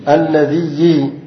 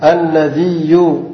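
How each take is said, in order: First: الذي drawn out slowly to end in -iyyi; doubled ya with kasra. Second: الذي drawn out slowly to end in -iyyu; doubled ya with damma. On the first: Teacher answering how the kasra form sounds, الذي as alladhiyyi. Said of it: "تشديد الياء مكسورة". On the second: Teacher giving the alternative fifth form, الذي as alladhiyyu. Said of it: "ومضمومة". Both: Shown as a demonstration.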